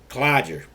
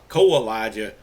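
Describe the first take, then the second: First: The name is clipped, with syllables left out. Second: The name is said with all its syllables. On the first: This is how local people in Alabama say it. "most people around here call Kalijah Clodger" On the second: This follows the spelling and perhaps the original pronunciation. "is the way that it's spelled"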